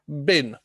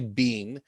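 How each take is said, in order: First: The word has a short vowel, like bin. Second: The word has a long vowel, like bean. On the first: "that bin sound. It's not like mister Bean" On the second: "If you say bean, that's okay"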